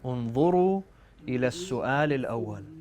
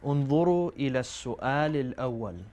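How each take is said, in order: The two takes are said the same way.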